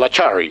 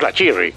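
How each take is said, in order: First: The vowel before the final syllable is a. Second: The vowel before the final syllable is i. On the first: "nunca la Charri" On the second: "mucho menos la Chirri"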